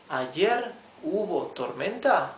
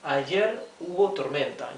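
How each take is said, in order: First: It is said with question intonation. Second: It is said with statement intonation. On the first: It asks whether there was a storm yesterday. "if we add the question marks, we would say" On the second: It states that there was a storm yesterday. "Yesterday there was a storm"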